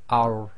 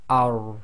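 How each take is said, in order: No difference in how they are said.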